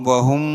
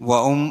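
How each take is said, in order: The two takes are said the same way.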